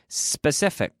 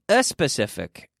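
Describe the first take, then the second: First: The word begins directly with an s sound. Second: The word begins with an added vowel sound. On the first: The speaker calls it right. "S consonant" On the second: The speaker calls it wrong. "Not a specific. Eso no vale"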